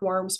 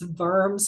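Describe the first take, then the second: First: The word begins with an English W sound. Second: The word begins with a German V sound. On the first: The speaker calls it wrong. "I know it looks like Worms" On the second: The speaker calls it right. "but it's Worms. It's a German pronunciation"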